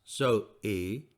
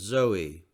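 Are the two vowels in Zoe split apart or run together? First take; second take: split apart; run together. First: The two vowels are split by a break. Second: The two vowels run together without a break. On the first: The speaker calls it wrong. "I must not pronounce her name as Zoe. She will be annoyed" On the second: The speaker calls it right. "Her name is Zoe"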